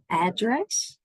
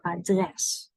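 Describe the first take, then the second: First: "address" with the stress on AD; English-style "address", first syllable punched. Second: "adres" with the stress on DRES; stress on second syllable. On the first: Teacher shows learners the wrong emphasis, "address" stressed up front. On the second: Teacher shows the Dutch emphasis, "adres" stressed on DRES. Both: Shown as a demonstration. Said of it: "our emphasis is on dress".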